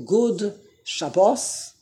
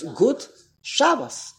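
First: Drawn-out "Good" with a D, then sha-BOS; English-Hebrew mix. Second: Slow "Gut" ending in T, then SHA-bos; crisp T on "Gut", stress the SHA of "Shabbos"; Yiddish pronunciation. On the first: Teacher mixes languages deliberately, "Good" with D plus sha-BOS. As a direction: sound the D of "Good", stress the end of "Shabbos". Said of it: "that's English and Hebrew". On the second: Teacher models pure Yiddish, "Gut" with T plus SHA-bos. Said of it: "that's Yiddish". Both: Shown as a demonstration.

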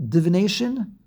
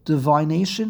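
First: "Divination" with short i in second syllable, div-ih-NAY-shun; short-i pronunciation. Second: "Divination" with second syllable like "vine", di-VYE-nay-shun; long-i pronunciation. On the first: Teacher asking class how to say it, "Divination" as div-ih-NAY-shun. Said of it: "How do you say the word". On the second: Teacher unsure of pronunciation, trying "Divination" as di-vye-NAY-shun. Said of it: "I don't know how to pronounce it". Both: Shown as a demonstration.

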